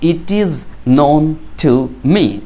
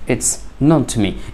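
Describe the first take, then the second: First: 'It is' is said as two full words. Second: 'It is' is contracted into one syllable.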